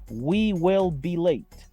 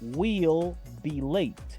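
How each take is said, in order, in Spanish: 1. We y will son dos palabras completas separadas. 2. We y will se unen en una sola sílaba corta.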